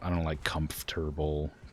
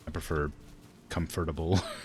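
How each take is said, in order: First: The word is said in its usual form. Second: The word is said the way it is spelled. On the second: "I prefer comfortable. I think I just say things the way they're spelled"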